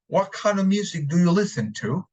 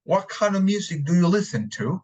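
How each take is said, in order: First: It is said in a British accent. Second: The same.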